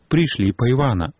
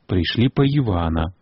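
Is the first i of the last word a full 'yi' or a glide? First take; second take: glide; full yi. First: The i becomes a short glide after the vowel. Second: The i is full, with a y-sound before it. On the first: "ненатискный гук «и» после слова «наголосный» переходит у «и», «йот»" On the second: "Допускается тут и вымовление с йотом перед «и»"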